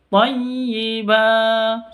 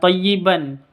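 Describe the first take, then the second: First: The word ends in a long vowel without n. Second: The word ends with a final n sound. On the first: The speaker calls it right. "Seperti itu panjang dua ketuk" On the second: The speaker calls it wrong. "bukan thayyiban"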